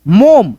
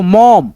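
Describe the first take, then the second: First: "मोम" with a closed o as in home; mispronunciation demo. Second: "मॉम" with an open aw vowel, lower pitch; corrected pronunciation. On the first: Teacher shows learners the misreading of mom, closed-o "मोम". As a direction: round "मोम" into a long o. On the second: Teacher corrects learners on mom, open-vowel "मॉम". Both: Shown as a demonstration. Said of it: "नहीं दोस्तों".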